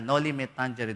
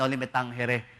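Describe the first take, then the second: First: It is pronounced the Latin way. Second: It is pronounced the Spanish way. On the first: "at ang Latin po niyan talaga" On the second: "Yung Spanish"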